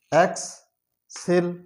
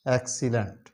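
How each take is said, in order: First: excellent drawn out slowly, syllable by syllable; slow syllable drill. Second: Said in the usual way. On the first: Shown as a demonstration. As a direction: stretch excellent into slow parts. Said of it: "syllable drilling". (Excellent को धीरे-धीरे टुकड़ों में बोलना) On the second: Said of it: "normal reading after drill".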